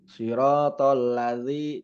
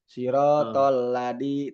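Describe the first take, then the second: First: The middle consonant is a soft th sound. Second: The middle consonant is a plain d sound. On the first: The speaker calls it right. "Ada penekanan gitu" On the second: The speaker calls it wrong. "itu kalau misalkan nggak ada titiknya"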